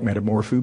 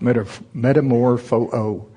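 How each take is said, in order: First: The final o sound is short and single. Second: The final o sound is lengthened or doubled. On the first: The speaker calls it wrong. "I personally like metamorpho better, but it's just wrong" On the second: The speaker calls it right. "It's metamorpho-o"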